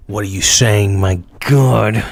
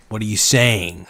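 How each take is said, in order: First: Repeats the question in a put-on voice. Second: Said in the usual way. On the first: Shown as a demonstration. Streamer to chat, a lightly put-on voice. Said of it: "repeats the line in a put-on voice". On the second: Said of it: "repeats the line as a take".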